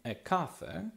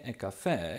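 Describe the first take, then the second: First: The word is said with a British pronunciation. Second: The word is said with an American pronunciation. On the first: "jak słownik podaje, jest brytyjskie" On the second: "jest amerykańskie"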